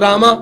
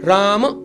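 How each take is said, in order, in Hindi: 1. नाम लंबे 'a' स्वर पर खत्म होता है। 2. नाम व्यंजन पर खत्म होता है, कोई स्वर नहीं। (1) "इट रामा भी नहीं है" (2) "इट्स कृष्ण राम"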